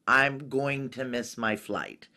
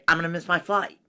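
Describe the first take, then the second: First: It is said in a neutral accent. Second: It is said in an Arkansas accent.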